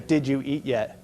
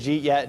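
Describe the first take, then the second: First: Each word is pronounced fully and separately. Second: The words are squeezed together and reduced. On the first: "you re recognize that that's" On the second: "walked up to their friends and said"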